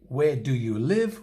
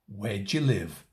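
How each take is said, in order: First: The auxiliary is said fully as a separate word. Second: The auxiliary is reduced and joined to where. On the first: The speaker calls it wrong. "We don't say" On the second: The speaker calls it right. "We say"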